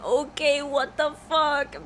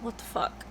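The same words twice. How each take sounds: First: Put-on higher, drawn-out kid's yell; mock-yell like an overexcited kid; imitated yelling. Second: Hushed imitation of a kid swearing; sneaky whispered swear. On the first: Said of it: "he starts yelling". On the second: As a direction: whisper a forbidden word like a little kid. Imitates brother swearing at camera.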